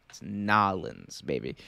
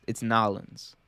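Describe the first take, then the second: First: Put-on "Nolans" drawn out slow and low, trailing to a soft "baby"; cocky slow, low, soft "Nolans, baby"; swaggering Nolans. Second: "Nolans" in two syllables, softer, falling; "It's Nolans" clipped local slang, said softly; Nolans pronunciation. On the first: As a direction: lean back and drawl "It's Nolans, baby" slow and low. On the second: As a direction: state "It's Nolans" with a settled fall. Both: Shown as a demonstration. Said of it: "some people say it like that".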